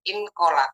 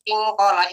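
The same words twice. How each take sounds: First: The n is pronounced fully and clearly. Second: The n is hidden with a nasal hum. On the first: This is hard for the tongue. The speaker calls it wrong. "Lidah akan sulit" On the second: This comes easily, following the tongue. The speaker calls it right. "inkola itu mudah"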